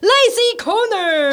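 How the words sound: It is said in a grand, majestic tone.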